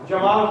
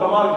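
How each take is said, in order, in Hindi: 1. यह शब्द ज की आवाज़ से शुरू होता है। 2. यह शब्द कठोर ग की आवाज़ से शुरू होता है।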